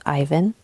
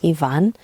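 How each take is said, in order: First: "Ivan" said as EYE-vun; English reading of Ivan. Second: "Ivan" said as ee-VAHN; ee-VAHN pronunciation. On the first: Host giving her son's name as spelled, "Ivan" as EYE-vun. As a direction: say "Ivan" with a long eye, stress first. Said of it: "spelled Ivan, but pronounced Ivan". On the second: Host showing how her son's name is pronounced, "Ivan" as ee-VAHN. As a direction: say "Ivan" with ee first, stress on VAHN. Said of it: "but pronounced Ivan". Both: Shown as a demonstration.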